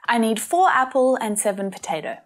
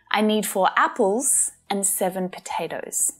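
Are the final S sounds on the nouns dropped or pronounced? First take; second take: dropped; pronounced. First: The final S sounds on the nouns are dropped. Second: The final S sounds on the nouns are pronounced. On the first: The speaker calls it wrong. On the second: The speaker calls it right.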